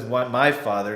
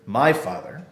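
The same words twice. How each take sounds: First: "my" pushed out above "father"; "my" stressed, set against "our". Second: "my" in "my father" given the main weight; emphasize "my", not "father"; "my" leaned on, quoted gently; stress on my. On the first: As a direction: lean on the word "my" in "Why my father". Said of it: "He says it in this way". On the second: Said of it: "by emphasizing the words". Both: Shown as a demonstration.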